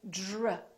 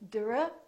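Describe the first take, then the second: First: The d sounds softly like a j sound. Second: The d is a plain, clear d sound. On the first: The speaker calls it right. "we say dr" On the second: The speaker calls it wrong. "We don't say dr"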